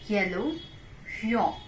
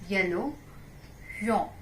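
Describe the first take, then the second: No difference in how they are said.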